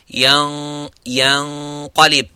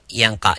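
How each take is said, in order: First: The nasal sound before the q is heavy. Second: The nasal sound before the q is light. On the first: The speaker calls it right. "You'd say yanqalib. ... you make the ghunna mufakham" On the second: The speaker calls it wrong. "you wouldn't say yanqa yanqa"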